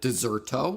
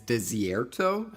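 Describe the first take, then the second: First: The second syllable is a plain 'sair'. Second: The second syllable has a 'see-air' glide. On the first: The speaker calls it wrong. "I did pronounce the name wrong" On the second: The speaker calls it right. "It is Desierto"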